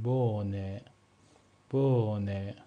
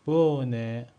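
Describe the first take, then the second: First: بونه twice, the o stretched and the h silent; long vowel, silent h. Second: بونه said louder, the o drawn long, no h; silent German h. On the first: Teacher drilling the stretched vowel. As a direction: linger on the o in بونه. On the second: Teacher showing that h after a vowel stays silent. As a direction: hold the vowel in بونه, drop the h. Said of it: "حرف ها رو تلفظ نمی کنیم". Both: Shown as a demonstration.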